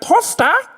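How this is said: It is said with an Australian accent.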